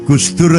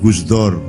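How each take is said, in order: First: The last vowel is an 'u' sound. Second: The last vowel is an 'o' sound.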